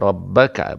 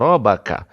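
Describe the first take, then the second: First: The b sound is held and doubled. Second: The b sound is short and single. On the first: The speaker calls it right. "ada sabdu" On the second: The speaker calls it wrong.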